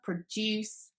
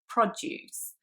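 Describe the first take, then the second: First: The stress is on the second syllable. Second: The stress is on the first syllable. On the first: It is a verb meaning to create. "the second syllable is the strong one" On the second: It is a noun meaning fresh food. "the first syllable is the strong one"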